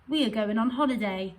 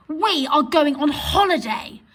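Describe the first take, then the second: First: Said in the usual way. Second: Higher and louder, punched we; excited. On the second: Shown as a demonstration. Teacher reading the exclamation version with excitement. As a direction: announce the holiday with glee. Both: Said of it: "express those sentences in a different way".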